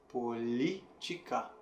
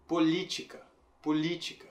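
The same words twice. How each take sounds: First: "Política" slowly, syllable by syllable, "li" stressed. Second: Said in the usual way. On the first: Shown as a demonstration. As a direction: softly break up "Política" around a long "li". ("Política" devagar, separando as sílabas, com "li" forte) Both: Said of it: "a sílaba forte é li".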